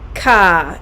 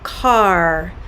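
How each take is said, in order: First: The final R sound is dropped. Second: The final R sound is strongly pronounced. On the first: "On the East Coast, car is pronounced ka" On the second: "I very much am going to almost over enunciate the er sound"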